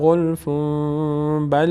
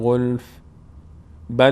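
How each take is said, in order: First: 'Ghulf' runs straight into 'bal' without stopping. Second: There is a stop after 'ghulf', ending it in silence. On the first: "ولی اگر بخوایم ادامه بدیم" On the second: "این در هنگامی که ما روی کلمه غلف توقف کنیم"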